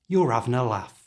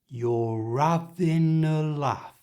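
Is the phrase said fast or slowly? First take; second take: fast; slowly. First: The phrase is said fast and reduced. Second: The phrase is said slowly and carefully. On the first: "And at normal speed" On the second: "So slowly it sounds like this"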